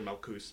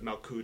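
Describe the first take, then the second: First: The word ends with an s sound. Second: The word ends with a t sound. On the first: "or Malkus" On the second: "instead of Malkut"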